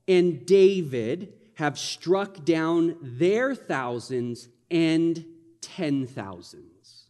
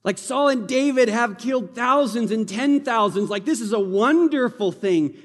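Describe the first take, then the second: First: Slow, drawn-out reading of the line. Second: Higher, louder, celebrating the victory; celebration. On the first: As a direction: read it slowly, weighing each word. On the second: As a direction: cheer it like a victory song. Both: Shown as a demonstration. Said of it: "Do you hear the celebration in that?".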